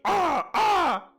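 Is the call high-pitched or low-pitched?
low-pitched. A lower-pitched raven call imitation.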